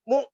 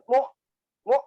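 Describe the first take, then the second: First: The glottal stop is held cleanly with no echo. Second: The glottal stop is released with a bouncing echo. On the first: The speaker calls it right. "gitu ya" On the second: The speaker calls it wrong. "bukan mu mu, ya hati-hati itu"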